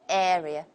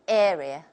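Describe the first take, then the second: No difference in how they are said.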